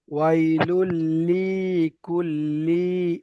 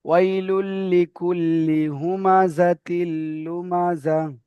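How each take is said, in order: First: ওয়াইলুল লিকুল্লি with লি wrongly stretched long; imitating the mistake. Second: ওয়াইলুল লিকুল্লি with a short লি, not stretched; correct reading. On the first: Teacher mimicking a student's wrong elongation. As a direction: drag out the লি like the student did. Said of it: "এই লি দুটো টান হয়ে যাচ্ছে". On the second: Shown as a demonstration. Teacher correcting the student with the short লি. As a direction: keep the লি short and clipped. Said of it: "লি টান হবে না".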